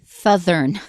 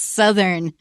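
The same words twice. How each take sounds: First: The word has two th sounds. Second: The word has only one th sound. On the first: The speaker calls it wrong. "don't say southern" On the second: The speaker calls it right. "There's only one th sound"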